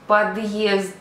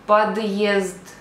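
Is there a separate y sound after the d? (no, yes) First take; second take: yes; yes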